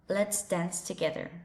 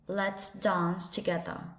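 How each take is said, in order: First: It is said in an American English accent. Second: It is said in a British English accent. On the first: "In American English" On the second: "And in a British English"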